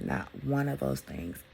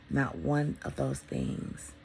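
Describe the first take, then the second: First: Said in the usual way. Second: Much lower, slow, weight on one; slow low emphasis. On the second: Real, not acted. Telling viewers what she doesn't miss, slow and low. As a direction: linger on each word.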